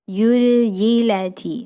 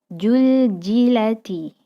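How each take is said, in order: First: The word starts with a y sound. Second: The word starts with a j sound. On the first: "huruf za menjadi huruf ya" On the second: "huruf za menjadi ja"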